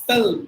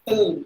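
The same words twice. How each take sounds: Both takes have the same delivery.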